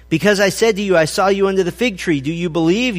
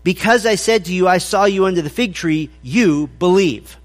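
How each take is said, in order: First: Rising question on believe; "do you believe?" read with a rising questioning tune. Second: Falling statement on believe; "you believe" read with a firm falling tune, no question. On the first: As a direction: ask it, lift at the end of "do you believe?". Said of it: "this should be really taken more of a statement". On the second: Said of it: "more in the vein of". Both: Shown as a demonstration.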